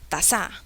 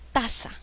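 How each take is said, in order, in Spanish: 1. El acento está en la segunda sílaba. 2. El acento está en la primera sílaba. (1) "mm, mm, no" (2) "suena bien"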